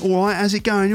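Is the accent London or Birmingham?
London. It is said in a London accent.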